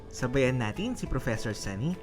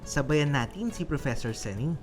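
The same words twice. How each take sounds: The two takes are said the same way.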